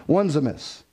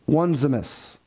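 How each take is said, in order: The two takes are said the same way.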